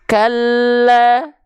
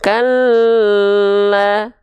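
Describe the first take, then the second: First: The doubled l is only pressed, kept short. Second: The doubled l is held for a long time. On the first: The speaker calls it right. "Atau cuma ditekan saja" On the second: The speaker calls it wrong. "kita coba tahan ... Sepanjang itu nahan l-nya"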